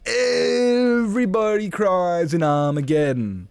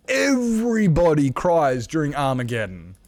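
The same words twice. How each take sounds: First: Very high, slow, drawn-out wail; hammed-up outcry. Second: Raised, emphatic exclamation; mock outrage. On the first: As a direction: stretch EVERYBODY long and high in mock outrage. Repeats the outcry, bigger and drawn out. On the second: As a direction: declare it as an indignant protest. Mock-outraged rant about crying at films.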